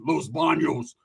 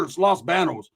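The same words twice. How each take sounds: First: "Banos" as BAHN-yohs, with ny; Spanish pronunciation. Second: "Banos" with flat A, BAN-ohs; anglicized pronunciation. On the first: Mocking the town's name, "Banos" as BAHN-yohs. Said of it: "It's not Los Toilets". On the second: Friend correcting the name to "Banos", said BAN-ohs. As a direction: insist on "Los Banos" as Loss BAN-ohs. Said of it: "say it with your chest". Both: Retold or imitated.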